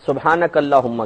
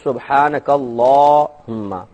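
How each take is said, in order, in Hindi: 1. 'la' स्वर छोटा बोला जाता है। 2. 'la' स्वर लंबा खींचा जाता है। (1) "सुब्हानक अल्लाहुम्मा कहते हैं" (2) "ला को लंबा खींचेंगे क्योंकि खड़ा जबर है इसमें"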